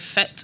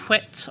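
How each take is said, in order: First: The word begins with an f sound. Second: The word begins with a w sound. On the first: This is how northeast Scotland says it. "I'm from the northeast of Scotland ... we say fit" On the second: This is how other Scots dialects say it. "rather than saying whit"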